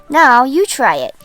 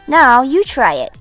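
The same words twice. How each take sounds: The two takes are said the same way.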